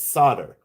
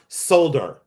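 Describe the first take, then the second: First: The word is said without an L sound. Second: The word is said with an L sound. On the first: The speaker calls it right. "it's solder. That's the way we say it in America" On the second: The speaker calls it wrong. "It's not solder"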